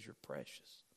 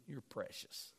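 First: Soft, much lower and quieter "You're precious"; mean it gently, from the heart; God speaking to His child, tender and sincere. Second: Dry mocking "You're precious", much softer; sarcastic. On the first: Pretend. God's sincere words contrasted. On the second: Shown as a demonstration. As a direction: sneer it like a backhanded compliment.

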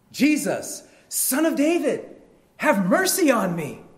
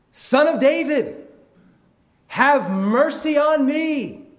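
First: High, loud plea; crying out. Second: Drawn-out, high, full-force shout; crying out harder. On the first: Blind man calls to passing Jesus, crying out. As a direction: shout it out to be found. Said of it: "And he cries out". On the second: Blind man defies the hushing crowd, crying out harder. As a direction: bellow the plea slowly at a high pitch. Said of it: "he cries out all the more". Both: Acted.

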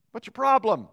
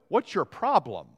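First: "What's your problem?" thrown out higher and louder, stress on problem; preacher's emphatic punchline, higher and louder; emphatic repeat. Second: Said in the usual way. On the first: Real, not acted. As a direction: hit "problem" hard with a pointed challenge.

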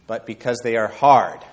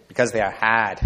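First: Said in the usual way. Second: Put-on JFK's Boston accent, dropping the r in "hard". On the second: Preacher mimicking Kennedy's moonshot speech, Boston accent. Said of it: "This sounds better in his Boston accent".

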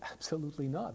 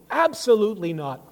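First: Said in the usual way. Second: Loud, high, forceful denial; ringing pulpit rejection; emphatic negation. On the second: Retold or imitated. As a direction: punch out a total refusal. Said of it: "one of Paul's emphatic, uh, negations".

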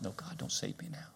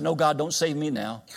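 First: Breathless whisper, no voice at all; a hushed secret refusal to God. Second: Defiant refusal. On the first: Preacher retelling his tractor refusal to God, whispered. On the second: Retold refusal to God. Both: Retold or imitated.

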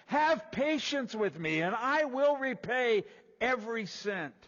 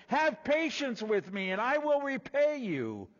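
First: Higher, louder, slow plea for patience; begging slave. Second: Higher, louder plea for patience; pleading slave. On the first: Slave on the ground begging his lord, higher, louder, slow. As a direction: plead on your knees for time. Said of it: "the slave fell to the ground... saying". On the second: Fellow slave pleading for time, higher and louder. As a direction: beg for mercy from the ground. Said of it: "began to plead with him, saying". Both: Acted.

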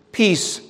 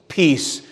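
First: Peace lifted high and stressed; first peace set apart, pitched up. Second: Said in the usual way. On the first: Shown as a demonstration. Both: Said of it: "You have this repetition".

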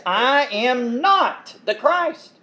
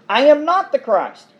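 First: "I am NOT the Christ" with a slow, heavy NOT; slow stress on not. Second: "I AM not the Christ" with the weight on "am"; stress on am. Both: Shown as a demonstration. John's denial, read twice.

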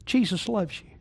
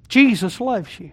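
First: Quiet tender. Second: Slowed and deliberate, JESUS leaned on; each word given its weight; slow emphatic. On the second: Preacher repeating it slowly to the congregation. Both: Acted. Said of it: "Can I say that again?".

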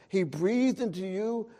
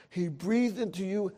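The two takes are said the same way.

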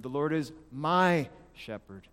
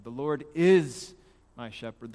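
First: Slow down and lean hard on MY; stress on MY. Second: IS drawn out long and loud, then drop; stress on IS. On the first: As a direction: hold MY, pause before shepherd. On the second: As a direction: hit IS hard and hold it. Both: Shown as a demonstration. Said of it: "emphasize one word at a time".

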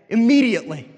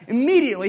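First: "Immediately" hit hard and loud, falling at the end; emphatic word. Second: "Immediately" again, pitched higher and loud with a sharp fall; emphatic repeat. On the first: Preacher stressing how fast Jesus acted: "Immediately" loud and falling. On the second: Preacher repeating his point: "Immediately" higher, loud, falling. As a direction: repeat "Immediately" higher and louder to drive it home. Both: Shown as a demonstration.

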